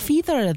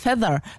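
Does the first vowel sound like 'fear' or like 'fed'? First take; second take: like fear; like fed. First: The first vowel sounds like the vowel in fear. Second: The first vowel sounds like the vowel in fed. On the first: The speaker calls it wrong. "Ich will immer Feather sagen. Weil man sagt ja auch Fear" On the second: The speaker calls it right. "aber heißt Feather"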